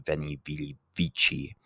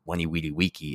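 First: It is said with modern Italianate Latin pronunciation. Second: It is said with classical Latin pronunciation. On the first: "more modernized Latin / Italian" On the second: "classical Latin"

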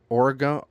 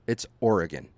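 First: The last syllable sounds like 'gone'. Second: The last syllable does not sound like 'gone'. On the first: This is how out-of-towners say it. The speaker calls it wrong. "as everyone in fucking Minnesota pronounces it" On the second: This is how locals say it. The speaker calls it right. "This is not Oregon. This is fucking, it's Oregon"

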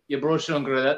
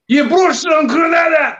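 First: The phrase is said quietly without force. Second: The phrase is shouted loudly and forcefully. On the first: The speaker calls it wrong. "it doesn't sound good when you're like" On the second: The speaker calls it right. "You can only shout it"

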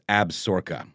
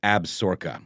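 First: The middle is shortened, giving fewer syllables. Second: The middle is shortened, giving fewer syllables.

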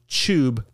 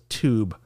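First: The word starts with a ch sound. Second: The word starts with a t sound. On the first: This is the European way of saying it. The speaker calls it wrong. "Maybe Europe says tube" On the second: This is the American way of saying it. The speaker calls it right. "America says tube, like adults"

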